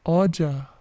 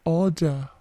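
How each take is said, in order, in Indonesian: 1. Diucapkan dengan aksen Inggris. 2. Diucapkan dengan aksen Inggris.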